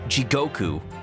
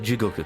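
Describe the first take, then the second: First: One syllable is stressed, English style. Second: All syllables are even, with no stress. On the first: The speaker calls it wrong. "instead of saying saying like" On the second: The speaker calls it right. "try to say like Jigoku. Just the whole thing flows"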